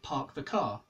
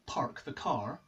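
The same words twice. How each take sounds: First: The R sounds after the vowels are silent. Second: The R sounds after the vowels are pronounced. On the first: This is how the speaker's own dialect says it. "I speak a non-rhotic dialect" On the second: This is how Americans say it. "I don't pronounce the R's that come after vowels like the Americans do"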